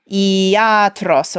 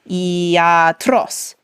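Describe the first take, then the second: First: The stress falls before the last syllable. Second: The stress falls on the last syllable. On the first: The speaker calls it wrong. "we tend to want to emphasize or stress whatever syllable is long" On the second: The speaker calls it right. "but it's iatros"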